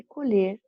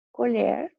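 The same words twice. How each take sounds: First: Colher with a closed ê, like colhêr, to harvest; colher as a verb, closed ê. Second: Colher with an open é, like colhér, a spoon; Colher as a noun, open é. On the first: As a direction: stress colher at the end with closed ê. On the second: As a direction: stress Colher at the end with open é. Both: Shown as a demonstration. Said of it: "Só que a pronúncia é diferente".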